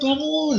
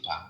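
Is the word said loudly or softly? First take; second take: loudly; softly. First: The word is shouted loudly. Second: The word is said softly and gently. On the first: Someone must be shouted awake. "harus teriak-teriak" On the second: Someone is woken gently. "dibangunkan dengan dengan pelan-pelan"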